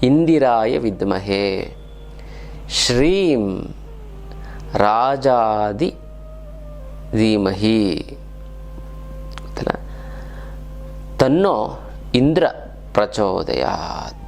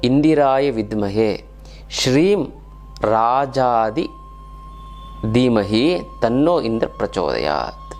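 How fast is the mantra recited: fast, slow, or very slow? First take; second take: very slow; fast. First: It is recited at a very slow pace. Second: It is recited at a fairly quick pace.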